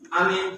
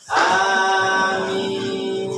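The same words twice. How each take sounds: First: The word is clipped short and said quickly. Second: Both vowels are held long and drawn out. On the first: "Amin kayak gitu mah pasnya kalau imamnya kecepatan" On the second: "Amin itu a-nya panjang, mi-nya panjang"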